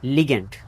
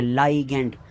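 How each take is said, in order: First: The first syllable sounds like 'lee'. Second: The first syllable sounds like 'lie'. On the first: This is how the speaker used to say it. "मैं पढ़ता था इसे लिगेंड" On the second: This is how the speaker's wife says it should be said. "इसको तो लाइगेंड पढ़ते हैं"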